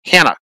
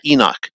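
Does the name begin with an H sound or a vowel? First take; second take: H sound; vowel. First: The name begins with a breathy H sound. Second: The name begins directly with a vowel sound. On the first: The speaker calls it right. "it should be Hanok. Hanok, not Enoch" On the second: The speaker calls it wrong. "not Enoch"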